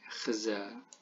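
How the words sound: The first consonant is a throaty kh sound. The speaker calls it wrong.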